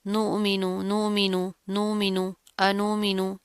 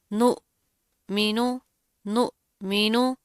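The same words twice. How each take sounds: First: "नुमिनु" run together quickly, softer, vowels cut short; softly rattled-off "नुमिनु", vowels not held; wrong recitation demo. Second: "नुमिनु" very slow, syllables separated and held; slow, drawn-out "नुमिनु" in recitation style; correct recitation demo. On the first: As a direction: show the mistake: "नुमिनु" without stretching the vowels. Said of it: "इसको आपने इस तरह नहीं पढ़ना". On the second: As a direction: model "नुमिनु" carefully, a gap after "नु". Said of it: "इस तरह नहीं करना". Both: Shown as a demonstration.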